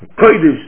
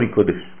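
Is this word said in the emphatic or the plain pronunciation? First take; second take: emphatic; plain. First: The word is said in an emphatic, marked pronunciation. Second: The word is said in a plain, ordinary pronunciation. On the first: It is thought to sound stronger. "לפעמים רוצים להדגיש ככה את המילים" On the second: It means exactly the same. "זה אותו דבר"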